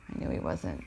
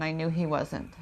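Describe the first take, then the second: First: Much lower and softer, "wasn't" lifting at the end; quietly repeating it to herself; soft low echo. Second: Said in the usual way. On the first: Real, not acted. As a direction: let "I knew he wasn't" sink to a low murmur.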